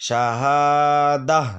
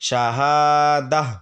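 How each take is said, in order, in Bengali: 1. শব্দটি একটি হালকা 'h' ধ্বনি দিয়ে শেষ হয়। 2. শব্দটি একটি হালকা 'h' ধ্বনি দিয়ে শেষ হয়।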